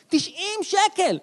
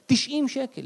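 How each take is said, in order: First: תשעים שקל slowed and pitched up in outrage; stretched outraged price; repeated with emphasis. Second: Said in the usual way. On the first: Shown as a demonstration. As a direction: drag out שקל high and slow in mock shock.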